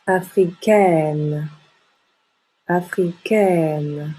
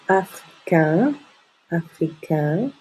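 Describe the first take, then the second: First: Africaine with open è and sounded n; very slowly, open up africaine and hold the n; open mouth ending. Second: Africain on a nasal vowel, N silent; slowly, africain with the mouth fairly closed; closed nasal ending. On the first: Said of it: "et on ouvre la bouche". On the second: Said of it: "on ne prononce pas le N". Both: Shown as a demonstration.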